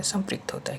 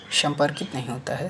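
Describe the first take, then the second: First: "संपृक्त" said higher, then falling firmly; teacher giving the right word "संपृक्त" with a fall; correct form, higher and settled. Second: "संपर्कित" lifted like a question, the wrong word; teacher naming the mistake "संपर्कित" with a rise; wrong form with rising tune. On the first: ("संपृक्त" सही रूप, गिरते सुर में) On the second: ("संपर्कित" गलत रूप, उठते सुर में) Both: Shown as a demonstration.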